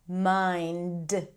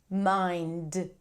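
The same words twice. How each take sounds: The two takes are said the same way.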